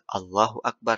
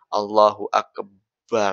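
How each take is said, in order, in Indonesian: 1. Tidak ada bunyi yang dipanjangkan atau digandakan. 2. Bunyi b pada Akbar digandakan. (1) "harus takbir" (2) "nggak boleh juga baknya ditasydidkan"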